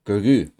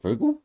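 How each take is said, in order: First: "Grogu." loud and falling, corrected; "Grogu." stated flat and loud; Grogu said firmly. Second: "Grogu?" as a high questioning squeak; "Grogu?" pitched way up, unsure; Grogu mispronounced. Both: Real, not acted. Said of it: "You can tell I'm drunk".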